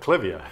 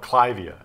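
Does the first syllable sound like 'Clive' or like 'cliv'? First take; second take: cliv; Clive. First: The first syllable has a short 'cliv' vowel. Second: The first syllable sounds like the name Clive. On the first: This is the customary trade usage. "Well, I always called it clivia" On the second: The name follows the person it honors. "was named after an individual named Von Clive. So people want to call it clivia"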